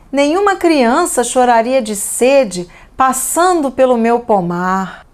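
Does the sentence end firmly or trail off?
trail off. The sentence ends suspended, trailing off without closing. The thought continues beyond the sentence.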